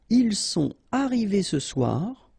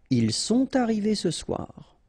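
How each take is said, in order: First: No linking sound joins sont and arrivés. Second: A t sound joins sont to arrivés.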